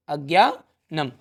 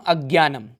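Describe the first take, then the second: First: अज्ञानम slowly, broken into drawn-out parts; slow dictation. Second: Said in the usual way. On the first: Real, not acted. Dictates the answer while writing it. (अज्ञानम को तोड़कर, धीरे लिखवाते हुए)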